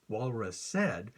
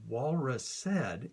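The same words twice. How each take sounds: First: Slow, "walrus said" with the beat on "wal" and "said"; stressed rhythm demo. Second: Slow, "walrus said" with weight on "wal" and "said"; stressed rhythm demo. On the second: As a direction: spell the beat out slowly. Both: Shown as a demonstration. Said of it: "a two-syllable word can contribute a syllable".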